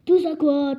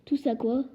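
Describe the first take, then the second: First: Loud booming echo of the question; thundered. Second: Mild surprised rise, normal level; boy baffled by the question; puzzled question. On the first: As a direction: roar the question back in outrage. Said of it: "tonna Hagrid". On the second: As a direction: ask it genuinely confused. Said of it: "s'étonna Harry". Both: A narrator's reading.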